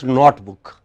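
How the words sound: The first syllable has a short 'o' vowel. The speaker calls it wrong. "becomes notebook"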